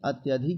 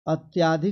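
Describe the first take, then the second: First: The vowel after 'ty' is a short 'a'. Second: The vowel after 'ty' is a long 'aa'. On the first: The speaker calls it right. "अत्यधिक होता है" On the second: The speaker calls it wrong. "अत्याधिक नहीं"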